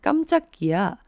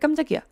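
First: It is said slowly and carefully. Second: It is said quickly, as an exclamation.

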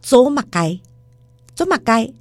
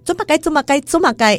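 First: It is said at a slower pace. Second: It is said at a faster pace.

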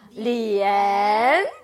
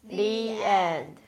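First: It is read as a question, rising. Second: It is read as a plain statement, falling.

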